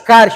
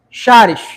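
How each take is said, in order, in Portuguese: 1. A palavra começa com som de k. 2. A palavra começa com som de sh.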